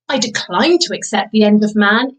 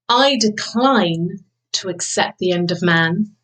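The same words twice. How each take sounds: First: The pitch rises and falls across the sentence. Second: Long silent pauses break up the sentence. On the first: "So now we go for pitch" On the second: "pause. So pause is really powerful"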